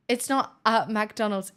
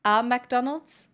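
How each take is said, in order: First: "not" hit on a falling line; stress on not. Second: A slow, rising "a McDonald's?" with the article stressed; puzzled over "a McDonald's"; mock British. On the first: Shown as a demonstration. Correcting chat about the article, firm fall. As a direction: flatly insist it's "not a McDonald's". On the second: Teasing a British chatter, slow quizzical rise. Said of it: "You mean starting my day with a McDonald's".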